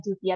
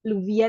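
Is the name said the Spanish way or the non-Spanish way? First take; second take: Spanish; non-Spanish. First: The name is said with Spanish pronunciation. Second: The name is said without Spanish pronunciation. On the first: "pronounce dari bahasa Spanyolnya gitu ya" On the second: "bilangnya Luvia itu juga nggak apa-apa"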